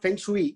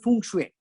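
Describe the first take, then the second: First: It is pronounced just as it is spelled. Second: It is pronounced differently from its spelling. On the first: The speaker calls it wrong. "It's not feng shui" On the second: The speaker calls it right. "It's called feng shui"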